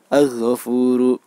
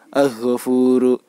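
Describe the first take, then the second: No difference in how they are said.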